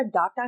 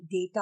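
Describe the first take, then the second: First: डाटा with long "aa", "daa-ta". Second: डेटा with "ay", as "day-ta"; "day" sound. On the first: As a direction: open the first vowel of डाटा to aa. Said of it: "आप लोग डाटा बोलते हैं". (डाटा में लंबा 'आ') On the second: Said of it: "डेटा होता है". (डेटा में 'डे') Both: Shown as a demonstration.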